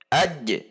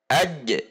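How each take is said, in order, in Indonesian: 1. Huruf j terakhir dilepas dengan pantulan. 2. Huruf j terakhir dilepas dengan pantulan.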